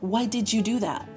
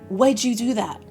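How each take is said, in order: First: The word did is pronounced in full. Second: Did shrinks to a j sound before you.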